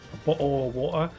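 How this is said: The t sounds are dropped, British style. "British pronunciation where people are like say"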